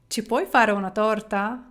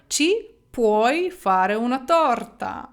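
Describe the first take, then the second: First: The voice rises at the end like a question. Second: The voice falls at the end like a statement. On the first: Can you bake a cake for us? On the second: You can make a cake out of it.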